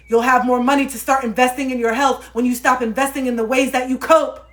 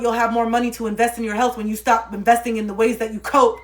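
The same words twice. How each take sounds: First: Repeated louder and higher for emphasis; pushing, insistent restatement; emphatic repeat. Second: Said in the usual way. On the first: Shown as a demonstration. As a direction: drive the point home harder. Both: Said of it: "repeats the line louder".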